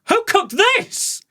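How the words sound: It sounds amazed and full of admiration. The food was wonderful. "My tone was like, um, who cooked this? It was more like, wow"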